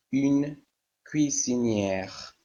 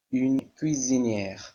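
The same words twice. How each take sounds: First: Une cuisinière said slowly, every syllable drawn out; slow model. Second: Said in the usual way. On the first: Shown as a demonstration. Teacher showing the class the feminine ending, slow and careful. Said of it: "teacher models the feminine form". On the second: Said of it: "teacher repeats the feminine form".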